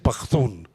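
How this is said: It is said in the northern dialect.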